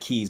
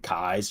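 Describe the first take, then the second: First: The name is said like the word 'keys'. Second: The name is said rhyming with 'eyes'. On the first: The speaker calls it wrong. "looks like Keys" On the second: The speaker calls it right. "she pronounced it Kies"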